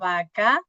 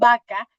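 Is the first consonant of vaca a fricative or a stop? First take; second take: fricative; stop. First: The lips stay apart for the first consonant. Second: The lips close fully for the first consonant. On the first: "ya no se unen los labios" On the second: "Se unen mis labios al inicio"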